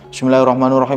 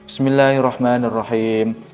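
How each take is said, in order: First: It is recited hastily and fast. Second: It is recited slowly and calmly.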